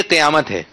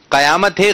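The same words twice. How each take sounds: First: قیامت with a short i after the q, qi-yaamat; correct pronunciation. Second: قیامت with an a after the q, qa-yaamat; wrong pronunciation. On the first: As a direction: say قیامت with zer under the qaf, as qi-. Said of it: "قاف کے نیچے زیر ہے". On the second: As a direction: say قیامت with zabar on the qaf, as qa-. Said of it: "قاف کے اوپر زبر نہیں ہے". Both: Shown as a demonstration.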